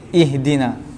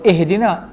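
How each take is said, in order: First: The first vowel sounds like 'ih'. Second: The first vowel sounds like 'eh'. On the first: The speaker calls it right. "kita baca ih lah" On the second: The speaker calls it wrong. "Sebab sebahagian kita sebut ihdina, eh"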